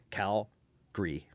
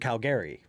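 First: One syllable is reduced or dropped. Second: All the syllables are fully pronounced. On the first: This is the everyday form used by locals. "reduce that syllable or elide it or take it away" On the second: This is an old, conservative form of the name. "what we consider kind of conservative pronunciations"

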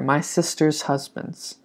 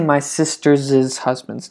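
First: 'Sister's' is said with no extra syllable. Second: 'Sister's' gets an extra 'iz' syllable. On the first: The speaker calls it right. "For plural, you just say regular" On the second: The speaker calls it wrong. "You don't say"

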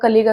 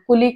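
First: The first vowel sounds like 'uh'. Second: The first vowel sounds like 'oo'. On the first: "बरेच जण याला कुलीग किंवा कलिग असं म्हणतात" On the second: "बरेच जण याला कुलीग किंवा कलिग असं म्हणतात"

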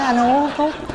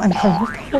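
First: It is said in a flat, even tone. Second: It is said with dramatic, emphatic intonation. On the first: The speaker calls it right. "Nói bằng bằng thôi" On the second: The speaker calls it wrong. "Đừng có nhấn nhá"

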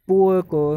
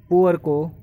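The two takes are said the same way.

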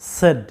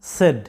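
Both takes have the same delivery.

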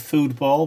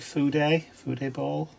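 First: It is said as two syllables. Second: It is said with an extra middle syllable. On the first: The speaker calls it wrong. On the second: The speaker calls it right.

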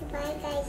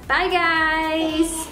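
First: It is said very quietly. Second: It is said at normal volume.

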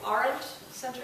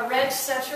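First: The first syllable sounds like 'aren't'. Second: The first syllable does not sound like 'aren't'. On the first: The speaker calls it right. "Roger has explained it is the Arendt Center" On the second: The speaker calls it wrong. "which I just mispronounced for the last time"

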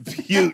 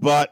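First: The word sounds like 'beaut', with a long 'you' vowel. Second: The word rhymes with 'cut', with a short vowel. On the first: The speaker calls it right. "It's Butte" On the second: The speaker calls it wrong. "It's not butt"

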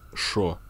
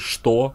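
First: The word is said with an 'sh' as 'sho'. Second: The word is said in full as 'chto'. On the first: "а шо" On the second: "не что"

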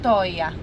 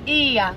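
First: The name begins with an 'oh' sound. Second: The name begins with an 'ee' sound. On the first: The speaker calls it wrong. "not OIA" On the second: The speaker calls it right. "the right one is IA"

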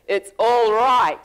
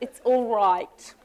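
First: It sounds enthusiastic, like truly great. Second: It sounds lukewarm, like merely okay.

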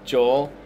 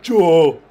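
First: It is said in his normal voice. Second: It is said in a put-on, mocking voice.

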